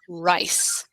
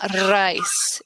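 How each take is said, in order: First: The R is smooth, without a trill. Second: The R is rolled with a trill. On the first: The speaker calls it right. "It's just rice" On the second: The speaker calls it wrong. "not rice"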